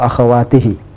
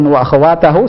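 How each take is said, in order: First: The word ends with the vowels i-hi. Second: The word ends with the vowels a-hu. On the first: The speaker calls it right. "Yang benar adalah wa akhwatihi" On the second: The speaker calls it wrong. "wa akhwatahu salah"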